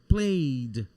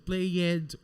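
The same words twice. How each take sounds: First: The ending is said as a plain d. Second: The ending is said as an extra syllable. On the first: The speaker calls it right. "nós vamos pronunciar esse ed como se fosse d" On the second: The speaker calls it wrong. "Muita gente fala ed, tipo played, worked, e tá errado"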